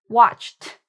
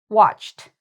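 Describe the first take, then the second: Both takes have the same delivery.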